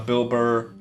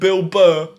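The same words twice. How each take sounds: First: The name is said in an American accent. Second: The name is said in a British accent.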